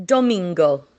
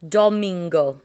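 The two takes are said the same way.

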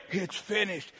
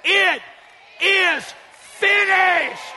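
First: Soft, low, feeble utterance; weak, defeated. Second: Loud, high, word-by-word proclamation; triumphant cry. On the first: Shown as a demonstration. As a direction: let it drop out quietly, lifelessly. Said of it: "He didn't say". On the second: Acted. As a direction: cry it out to make Satan tremble. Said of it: "He said it so Satan would tremble".

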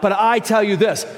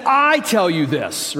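First: "But I tell you this" called out loud with a heavy "I"; preacher booming Jesus' words; emphatic quote. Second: Said in the usual way. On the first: Shown as a demonstration. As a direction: proclaim "But I tell you this", leaning hard on "I". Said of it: "He says this a lot". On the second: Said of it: "He said".

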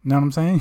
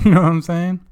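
First: Said in the usual way. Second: Laughing, louder repeat; giggly louder ask. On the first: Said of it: "repeats the catchphrase". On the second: Real, not acted. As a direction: laugh through the catchphrase. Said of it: "repeats it laughing".

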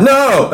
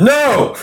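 First: High blurted "No!"; blurted confession. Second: Sudden high laughing "No!"; blurted confession. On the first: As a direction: blurt it out on impulse. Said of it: "I was like". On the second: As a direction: blurt it out without thinking. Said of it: "I just said". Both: Retold or imitated.

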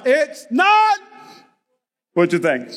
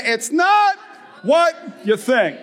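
First: Parents' exasperated call. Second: Congregation call. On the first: Retold or imitated. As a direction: sigh it like tired parents. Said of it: "Parents in the house". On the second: Shown as a demonstration. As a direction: lead them, punch not. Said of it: "say it this morning with me".

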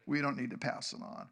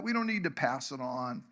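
First: Softer, lower repeat sinking in; quiet echo. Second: Said in the usual way. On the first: Shown as a demonstration. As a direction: let it land quietly the second time. Repeated for emphasis.

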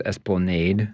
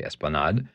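First: "esplanade" ending in nade; local esplanade. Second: "esplanade" ending in nahd; French esplanade. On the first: Telling how everybody locally says it, local pronunciation. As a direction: say "esplanade" to rhyme with made. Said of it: "everybody locally says esplanade". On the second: Showing how French would have it, French pronunciation. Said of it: "If I were pronouncing it in French". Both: Shown as a demonstration.

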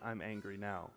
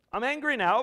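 First: Soft, low admission of anger; gentle God. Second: Loud, high declaration of anger; angry God. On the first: God speaking tenderly to us today, soft and low. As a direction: say it softly, tenderly. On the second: God declaring anger to faithless Israel, loud. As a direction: thunder it out as God. Preacher voicing God's anger. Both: Acted.

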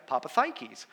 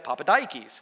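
First: Papathikis with TH, "THIGH-keys"; actual Greek pronunciation. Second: Papadikis with D, "DYE-keys"; server's pronunciation. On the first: Greek server giving the actual name, TH pronunciation. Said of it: "said, It's actually". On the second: Greek server reading out the surname, D pronunciation. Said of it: "How do you pronounce this". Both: Retold or imitated.

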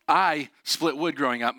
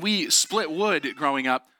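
First: "I" stressed and set apart with a pause. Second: Said in the usual way. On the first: Shown as a demonstration. Son correcting "we" as a joke, stress on "I". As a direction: lean on "I", then pause before the rest.

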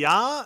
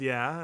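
First: "ya" with an open ah, louder and higher; Yooper pronunciation "ya". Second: Said in the usual way. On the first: Shown as a demonstration. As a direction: punch "ya" as the dialect form, no eh sound. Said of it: "So they say "ya" instead of "yeah". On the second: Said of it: "instead of "yeah".

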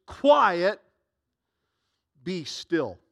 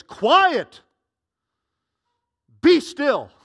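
First: Firm rebuke. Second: Shouted, much higher and louder command; harsh rebuke. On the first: Retold or imitated. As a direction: read it as a stern order. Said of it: "the word rebuke means to speak harshly". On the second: Acted. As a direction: bark it at the storm. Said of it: "He would speak harshly".

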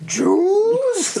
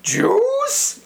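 First: "Juice?" squeaked very high, falling; high squeaky "Juice?". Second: "Juice?" squeaked very high and rising; high squeaky "Juice?". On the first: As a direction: squeal "Juice?" as a running gag. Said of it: "everyone was like". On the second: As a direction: squeal "Juice?" as a shocked question. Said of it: "I said it like that". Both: Retold or imitated.

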